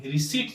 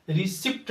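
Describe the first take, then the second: First: "रिसीट" with silent p; correct pronunciation. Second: "रिसिप्ट" with audible p; wrong pronunciation. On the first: Teacher correcting it, "रिसीट" with long ee. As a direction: say "रिसीट" as "ri-seet". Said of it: "पी यहाँ पे silent". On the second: Teacher showing what to avoid, "रिसिप्ट" with p sounded. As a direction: say "रिसिप्ट" as "ri-sipt". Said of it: "रिसिप्ट नहीं". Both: Shown as a demonstration.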